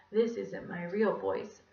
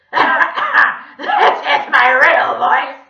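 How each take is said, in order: First: Lightly voiced Scottish gentleman, unhurried; slow, mild Scottish lilt; pleasant Scottish voice. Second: Loud, slow donkey with a sore throat; creepy squawk. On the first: Mister Gorf fooling the class with a stolen voice, pleasant Scottish. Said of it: "lovely gentleman I met in Scotland". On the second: Villain revealing his real voice to the children, loud squawk. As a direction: squawk it, high and drawn out, French-accented. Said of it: "he squawked". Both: A narrator's reading.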